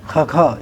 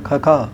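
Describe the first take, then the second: First: It starts with a rough hiss from the throat. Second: The same.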